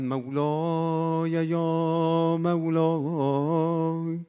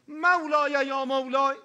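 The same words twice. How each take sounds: First: It is said softly, in a mystical, dreamy manner. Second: It is said firmly and loudly, in a serious manner. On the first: This is the old, mystical way of addressing God. The speaker calls it wrong. "مال زمان جنگ بود" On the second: God is addressed seriously and directly. The speaker calls it right. "الان با خدای خود جدی تر باید حرف بزنی، صدات هم بردی بالا طوری نیستا"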